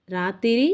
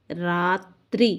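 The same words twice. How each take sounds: First: రాత్రి said in three syllables, "raa-ti-ri"; వికృతి ఉచ్చారణ. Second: రాత్రి drawn out slowly as "raaa-tri"; ప్రకృతి ఉచ్చారణ. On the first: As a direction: add an "i" between t and r in రాత్రి. (రాత్రిని "రా-తి-రి" అని పలకాలి) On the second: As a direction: hold the long aa, then join "tri" as one cluster in రాత్రి. (రాత్రిని "రా...త్రి" అని నెమ్మదిగా సాగదీసి పలకాలి) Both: Shown as a demonstration. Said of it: "ప్రకృతి వికృతి".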